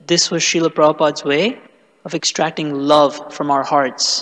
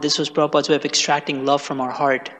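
First: It is said slowly and deliberately. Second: It is said at normal conversational speed.

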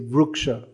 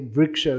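First: The first syllable is said with a 'ru' sound. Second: The first syllable is said with a 'ri' sound. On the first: This is the form used in many places in India. "they'll say Vruksha" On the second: This is the form not used in many places in India. "they don't say Vriksha"

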